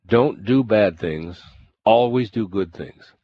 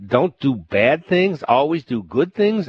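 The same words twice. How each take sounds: First: Calm, steady, slow "Don't do bad things"; the monk gives plain wisdom calmly from his tree; calm and simple. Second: Higher, louder, slow "don't do bad things", mocking it; the governor throws the monk's words back in scorn; irritated disbelief. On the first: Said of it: "the monk called down from the tree". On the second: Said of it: "Irritated and annoyed". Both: A narrator's reading.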